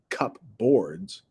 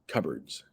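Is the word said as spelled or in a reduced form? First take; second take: as spelled; reduced. First: It is said as spelled, cup plus boards. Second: It is said in a shortened, reduced form. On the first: "It actually looks like cupboards" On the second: "but we pronounce it cupboards"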